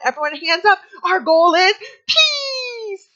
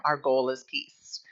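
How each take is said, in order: First: High, loud and slow, stretching out peace; preschool teacher voice. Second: Said in the usual way. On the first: Retold or imitated. Teacher leading circle time, high, loud and drawn-out. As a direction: cheer the kids' hands up. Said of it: "And I'd be like". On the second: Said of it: "that's how we'd start our circle time".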